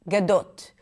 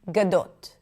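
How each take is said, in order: No difference in how they are said.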